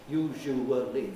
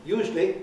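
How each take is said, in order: First: The word is said with four syllables. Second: The word is said with two syllables. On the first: The speaker calls it wrong. "old-fashioned and wrong to me to say usually. Usually. Four syllables" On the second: The speaker calls it right. "in a very common pronunciation, that's just two"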